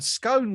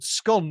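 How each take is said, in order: First: It is said the ordinary way. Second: It is said the posh way. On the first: "was the more kind of" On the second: "was the posh version"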